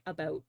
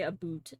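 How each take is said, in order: First: "about" with an open ou, not oo; own "about". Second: "a boot" with an oo vowel; exaggerated "a boot". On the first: Streamer correcting the stereotype, own Canadian "about". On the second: Streamer denying the Canadian stereotype, mocking "a boot". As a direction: say "a boot", rhyming the end with "hoot". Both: Shown as a demonstration. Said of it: "I say about".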